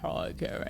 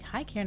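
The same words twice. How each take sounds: First: It sounds evil and menacing. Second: It sounds happy and friendly.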